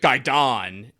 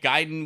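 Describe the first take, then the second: First: It is said in a dismissive, condescending tone. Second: It is said in a plain, neutral tone. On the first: The speaker calls it wrong. "he like said it like that, like kind of dismissively" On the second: The speaker calls it right. "is a perfectly fine, you know, way to do it"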